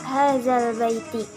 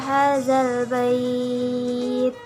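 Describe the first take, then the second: First: The phrase ends with a sounded final vowel. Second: The phrase ends on a consonant, vowel dropped. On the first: This is the phrase as written, read without stopping. "Tulisannya hazal baiti" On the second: The reader stops on this phrase. "karena wakaf maka harus dibaca hazal bait"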